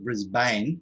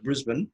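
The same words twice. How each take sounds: First: Brisbane is said the American way. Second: Brisbane is said the local Australian way.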